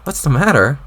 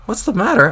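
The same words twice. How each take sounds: First: Said in the usual way. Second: Rising outraged echo. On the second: Acted. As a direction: echo it much higher and louder. Jane's echo escalates.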